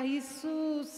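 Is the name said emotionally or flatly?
flatly. The name is said flatly and methodically. The words are recited as routine. The speaker calls it wrong. "това е много методично"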